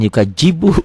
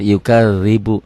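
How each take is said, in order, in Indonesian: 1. Huruf tengah dibunyikan seperti j. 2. Huruf tengah dibunyikan seperti th dalam this. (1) "jangan yukajibu ya" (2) "Orang manapun sama kalau sudah belajar yukadzibu"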